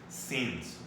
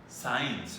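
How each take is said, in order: First: The vowel is a short 'ih' sound. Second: The vowel sounds like 'eye', as in 'signs'. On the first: The speaker calls it right. "it's since" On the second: The speaker calls it wrong. "Don't say si uh, signs"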